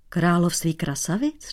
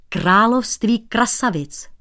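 First: Puzzled question. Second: Království krasavic slow and emphatic, higher; weighty emphasis. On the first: The painter echoes the cobbler's phrase, not understanding. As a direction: echo "Království krasavic" back in confusion. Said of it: "Nechápal cizinec". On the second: The cobbler warns the painter about the kingdom of beauties. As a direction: lean on "království krasavic" slowly. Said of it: "Tohle je, holoubku". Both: A narrator's reading.

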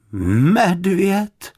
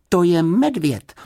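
First: High, drawn-out questioning MEDVĚD; sceptical, stretched-out query; doubtful echo. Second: Said in the usual way. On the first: A narrator's reading. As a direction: repeat MEDVĚD slowly in disbelief. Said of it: "opakovala paní Ptáčková pochybovačně".

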